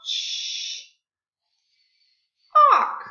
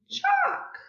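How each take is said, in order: First: "chalk" split: long voiceless ch, pause, then loud "alk"; sounding out. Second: "Chalk" joined up in one beat, high; blended word. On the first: Teacher changes check's vowel for class, segmented "chalk". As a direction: break "chalk" into ch, wait, then the rest. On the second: Teacher blends the new word for class, high whole "Chalk". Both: Shown as a demonstration. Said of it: "sound to an ah".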